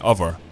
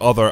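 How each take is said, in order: First: The middle of the word is changed, Scottish-style. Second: The word is said in its full standard form. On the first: "I would say other" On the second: "instead of other"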